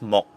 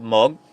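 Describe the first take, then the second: First: The word ends in a k sound. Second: The word ends in a g sound. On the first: "and the pronunciation is mok" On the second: "we have mog"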